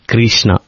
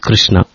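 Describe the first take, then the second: First: Extra vowels break up the consonant clusters. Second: The consonant clusters are kept together. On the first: The speaker calls it wrong. "break the word Krishna, it's Kirishana" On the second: The speaker calls it right. "It is Krishna"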